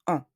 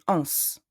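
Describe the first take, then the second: First: "en" as a pure French nasal vowel, no S; silent final S. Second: "ens" as a nasal vowel with a hissed S ending; final S sounded. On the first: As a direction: leave "en" open and nasal, dropping any final consonant. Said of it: "The S remains silent". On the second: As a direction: pronounce the silent S at the end of "ens". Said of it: "I don't say ens". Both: Shown as a demonstration.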